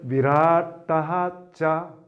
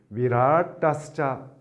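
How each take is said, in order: First: The words are separated, ending in an h-sound. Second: The words are joined, with an s-sound between them. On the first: "끊어 읽으면" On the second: "이어 읽으면"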